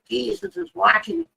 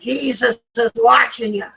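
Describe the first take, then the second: First: It is said somewhat louder. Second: It is said very loudly.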